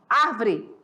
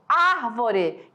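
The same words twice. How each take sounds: First: The stress is on the second syllable. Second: The stress is on the first syllable. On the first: The speaker calls it wrong. "e não árvore" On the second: The speaker calls it right. "árvore, e não"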